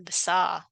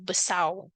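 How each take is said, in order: First: The final r is dropped entirely. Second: The final r becomes a u vowel. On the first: "R tu dah tak dengar" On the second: "R tu jadi U"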